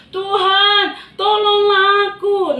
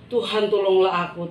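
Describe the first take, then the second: First: High, loud, slow wail for help; desperate cry. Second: Said in the usual way. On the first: Acted. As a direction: cry out as you sink. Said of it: "dia berteriak". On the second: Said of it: "pada saat dia berseru".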